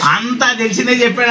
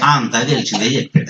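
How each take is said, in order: First: Higher, fuller-voiced repeat of the listeners' words; repeating listeners' complaint. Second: Low-pitched offhand mock grumble; imitating unimpressed listeners. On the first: Preacher throwing listeners' complaint back at them, imitated complaint. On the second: Listeners dismissing the visiting preacher's message, imitated unimpressed. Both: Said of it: "అంటారు మీరు కూడా".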